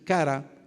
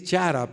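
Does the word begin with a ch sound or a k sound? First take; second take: k sound; ch sound. First: The word begins with a k sound. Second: The word begins with a ch sound. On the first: The speaker calls it right. "pero realmente la pronunciación es cara" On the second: The speaker calls it wrong. "Se podría decir chara"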